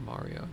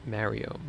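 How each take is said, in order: First: "Mario" as MAH-ree-o, very soft; very quietly test Mario with an "ah"; open-a Mario. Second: "Mario" as MARRY-o, softly; flat-a Mario. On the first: Streamer offering Chad the other way, soft MAH-ree-o. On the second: Streamer asking Chad how to say it, soft MARRY-o. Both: Shown as a demonstration. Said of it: "how you say it".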